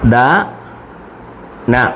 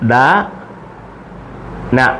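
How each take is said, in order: The two takes are said the same way.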